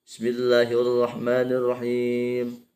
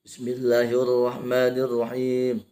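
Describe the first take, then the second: Both takes have the same delivery.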